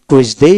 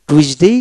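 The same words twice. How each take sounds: First: "টুইসডে" with a long "dei" ending; second of two pronunciations. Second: "টুইসডে" with a shorter ending; first of two pronunciations. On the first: Teacher showing double pronunciation, slow "টুইসডে" with long ending. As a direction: say "টুইসডে" slowly, drawing out the last vowel. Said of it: "double উচ্চারণ দেওয়া হলো". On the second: Teacher showing double pronunciation, slow "টুইসডে" with shorter ending. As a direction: say "টুইসডে" slowly, keeping the last vowel short. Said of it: "এগুলো প্রত্যেকটা পার্থক্য". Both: Shown as a demonstration.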